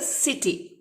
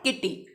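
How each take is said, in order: First: The word begins with an s sound. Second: The word begins with a k sound. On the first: The speaker calls it right. "This is pronounce as a सिटी" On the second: The speaker calls it wrong. "Not किटी"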